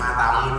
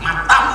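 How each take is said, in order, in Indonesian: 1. Diucapkan dengan nada lembut dan penuh kasih sayang. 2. Diucapkan dengan nada marah dan kasar.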